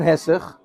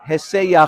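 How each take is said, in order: First: The final ch follows directly with no glide. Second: A slight y glide comes before the final ch. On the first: The speaker calls it wrong. "anybody who pronounces it Hesech Hadas" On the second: The speaker calls it right.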